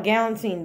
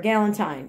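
First: Put-on galantine ending in "teen"; alternative pronunciation. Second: Galantine rhyming with Valentine; alternative pronunciation. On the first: Vlogger unsure of the bag's name, trying galantine with a "teen" ending. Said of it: "I don't know how to pronounce it". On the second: Vlogger offering the other name, galantine ending like Valentine. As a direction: say galantine as GAL-un-tine, long i. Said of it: "just like Valentine". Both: Shown as a demonstration.

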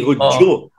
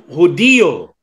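First: Hudyo run together as HUD-jo; wrong two-syllable form. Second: Hudiyo slowly as hu-DI-yo; correct stressed form. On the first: Warning friends off the wrong word, Hudyo in two syllables. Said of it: "hindi Hudyo". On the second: Warning friends of the right word, Hudiyo with DI stressed. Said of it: "ang tamang salita". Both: Shown as a demonstration.

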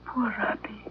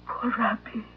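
First: Hushed whisper of pity; breathless whispered sorrow. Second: Said in the usual way. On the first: Acted. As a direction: whisper it sadly under your breath. Dog about to be put down.

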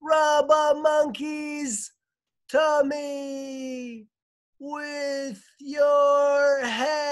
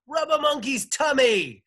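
First: Very slow, high, long-held cry; wailing far-off shout, each word drawn out; distant echoing call. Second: High, loud defiant shout; high-pitched shouted outburst. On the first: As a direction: stretch every word to carry across the water. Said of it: "Jane's voice echoed back across". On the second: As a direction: yell it out in one burst. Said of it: "she shouted". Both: A narrator's reading.

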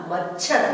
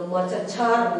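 First: मच्छर joined as mach-chhar; short च sound. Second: मच्छर split as ma-cha-chhar; full च sound. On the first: Teacher answering what it becomes, short-च pronunciation. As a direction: stop briefly on च before छर in मच्छर. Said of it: "च की उच्चारण छोटी". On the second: Teacher showing what it does not become, full-च pronunciation. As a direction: give च a full vowel in मच्छर. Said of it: "तो मच्छर नहीं हुआ". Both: Shown as a demonstration.

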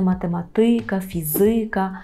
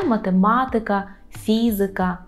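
First: Математика stressed on ма-ТИ, фізика on фі-ЗИ; wrong Polish stress on математика, фізика; stress on second-to-last syllable. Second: Математика stressed on ма-ТЕ, фізика on ФІ; third-from-end stress on математика, фізика. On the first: Teacher shows the stress learners expect. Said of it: "правило передостаннього складу". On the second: Teacher models correct Polish stress for viewers. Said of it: "наголошуємо третій склад з кінця". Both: Shown as a demonstration.

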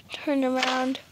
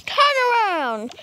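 First: Said in the usual way. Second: Barked order, higher and louder; loud angry parent command; stern command. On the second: Acted. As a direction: snap the order at the kid.

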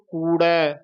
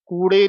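First: ਕੂੜੈ as "koo-rhai" with retroflex r; flapped r, ai ending. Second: ਕੂੜੇ as "koo-rhe", closed e; mistaken e ending. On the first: Teacher giving the correct form, retroflex r and ai. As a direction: flap the tongue back in ਕੂੜੈ. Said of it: "ਰਾੜਾ ਉਚਾਰਨ ਕਰਨਾ ਹੈ". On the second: Teacher warning against it, closed e ending. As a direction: end ਕੂੜੇ on e instead of ai. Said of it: "ਕੂੜੇ ਨਹੀਂ ਕਹਿਣਾ". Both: Shown as a demonstration.

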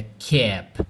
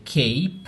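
First: "cap" said slowly with a short, open a, like "kép". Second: "cape" said slowly with a long gliding a, like "keip". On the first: Teacher showing students the short a in "cap". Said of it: "Essa palavrinha aqui, olha". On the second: Teacher showing students how the silent e changes "cape". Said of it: "isso aqui já é outra palavra". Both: Shown as a demonstration.

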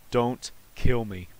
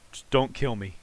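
First: Slow, spaced-out words; measured begging, "Don't" set apart; deliberate plea. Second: Said in the usual way. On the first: Real, not acted. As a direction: plead slowly, pausing after "Don't". Repeats the plea word by word.

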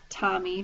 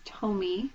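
First: Tommy said as TAH-mee; Tommy rhyming with "mommy"; short-vowel pronunciation. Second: Tomy said as TOH-mee; tomy with the first vowel as in "toe"; long-O pronunciation. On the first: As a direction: say Tommy with an open "ah" in the first syllable. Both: Shown as a demonstration. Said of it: "depending on how you pronounce it".

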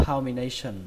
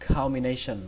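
Both takes have the same delivery.

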